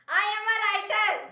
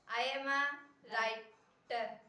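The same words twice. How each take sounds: First: It is said loudly. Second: It is said quietly.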